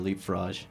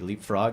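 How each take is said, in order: First: The final G is a soft sound. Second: The final G is a hard sound. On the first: "or is it a soft G?" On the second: "Is it a hard G"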